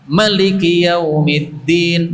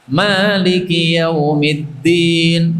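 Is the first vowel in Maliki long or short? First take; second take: short; long. First: The first vowel is short, one beat. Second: The first vowel is held long, two beats. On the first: "rakaat kedua pendek satu harokat" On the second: "Rakaat pertama panjang dua harokat"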